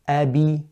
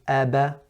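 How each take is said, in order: First: The b is followed by an i vowel. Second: The b is followed by an open a vowel. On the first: "And if I said kasra" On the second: "if I were to say a fatha"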